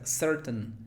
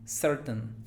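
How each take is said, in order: Both takes have the same delivery.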